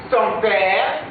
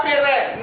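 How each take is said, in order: First: Père said pɛʁ; correct père. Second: Père as pɛrɛ, higher; père mispronounced pɛrɛ; wrong père. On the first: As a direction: say père as one short syllable, pɛʁ. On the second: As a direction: say père with a trailing extra vowel, pɛrɛ. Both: Shown as a demonstration. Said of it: "La prononciation père n'existe pas".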